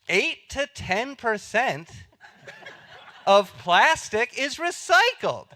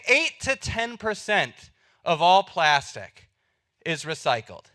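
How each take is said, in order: First: It is said in an upbeat, excited tone. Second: It is said in a flat, disappointed tone. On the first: This is a great achievement. "if you say it like this" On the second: This is a bad result. "And that's supposed to be bad"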